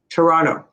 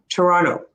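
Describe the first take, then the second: First: The second T is dropped. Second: The same.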